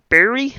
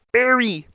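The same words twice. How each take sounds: First: Rising, unsure call of the name; questioning call. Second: Falling call of the name. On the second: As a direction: call him firmly across the room. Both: Acted.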